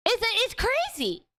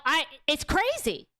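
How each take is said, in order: First: Much higher, disbelieving exclaim; incredulous. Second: Said in the usual way. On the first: Real, not acted. Streamer reacting to the movie's popularity, high incredulous exclaim. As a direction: let the disbelief push the pitch up.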